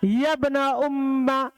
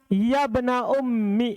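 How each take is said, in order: First: The last word ends in an 'a' vowel. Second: The last word ends in an 'i' vowel.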